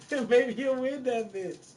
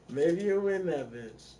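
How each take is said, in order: First: Laughing. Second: Said in the usual way. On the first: Real, not acted. Repeats the line, laughing.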